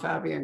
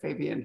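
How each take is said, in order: First: The name is pronounced the Spanish way. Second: The name is pronounced the English way. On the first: "I want to call him Fabian because it's the Spanish thing" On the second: "but Fabian, he says, is what he's used to"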